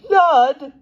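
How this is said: It is said gloatingly in a medium voice.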